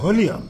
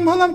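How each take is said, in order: First: The word ends in a 'lium' sound. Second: The word ends in a short 'lam' sound. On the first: The speaker calls it right. "ওটারে কয় ভলিউম" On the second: The speaker calls it wrong. "ওর ভলাম ভলাম করতেছো কেন?"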